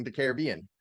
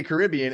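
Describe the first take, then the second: First: Caribbean as care-uh-BEE-un; stress on the third syllable. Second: Caribbean as high kuh-RIB-ee-un; stress on the second syllable. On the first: Host quoting Emily's correction, Caribbean as care-uh-BEE-un. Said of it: "now you're correcting the Caribbean". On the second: Host challenging Emily, Caribbean as kuh-RIB-ee-un. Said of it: "Why do you say Caribbean". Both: Shown as a demonstration.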